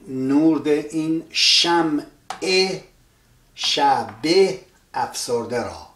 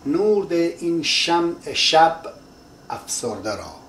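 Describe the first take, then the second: First: An extra 'e' vowel is said after 'shab'. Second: No vowel is said after 'shab'. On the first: This is ordinary prose phrasing. "If it was a normal sentence" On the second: This fits the meter of the poem. "the e at the end of the shab is omitted"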